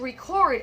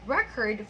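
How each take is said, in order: First: Record as a verb, re-CORD; stress on second syllable. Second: Record as a noun, REC-ord; stress on first syllable. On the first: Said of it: "the first one there is a verb". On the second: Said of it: "the second one is a noun". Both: Shown as a demonstration.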